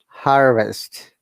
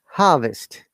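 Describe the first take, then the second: First: The r sound after the first vowel is pronounced. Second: The r is silent with a long first vowel. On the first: "And American" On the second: "British ac- you know a- accent"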